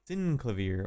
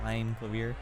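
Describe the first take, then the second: First: The first syllable sounds like sin. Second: The first syllable sounds like sign.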